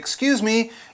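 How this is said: It is said in a polite, gentle tone. The speaker wants the waiter's attention. "It could be a polite way in a restaurant"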